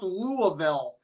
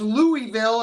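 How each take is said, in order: First: Louisville said as LOO-uh-vul; corrected Louisville pronunciation. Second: Louisville said as LOO-ee-vil; a clear "ee" in the middle of Louisville; wrong Louisville pronunciation. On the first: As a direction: middle of Louisville reduced to a soft "uh". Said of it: "it's pronounced Louisville". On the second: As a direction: say Louisville as three crisp syllables, LOO-ee-vil. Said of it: "It's not pronounced Louisville". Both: Retold or imitated.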